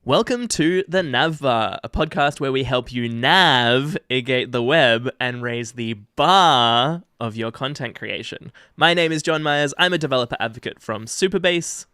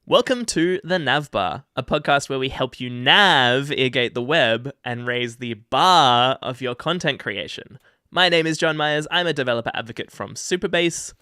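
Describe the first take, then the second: First: Slow, bright announcer intro; formal welcome read; podcast intro read. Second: Formal welcome read; podcast intro read. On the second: Podcast intro read, take two. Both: Acted. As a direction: open the show like a host.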